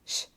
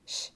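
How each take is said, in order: First: It is a hushing sh sound. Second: The same.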